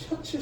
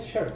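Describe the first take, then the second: First: The word ends with an added s sound. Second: The word ends without an s sound. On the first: The speaker calls it wrong. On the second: The speaker calls it right.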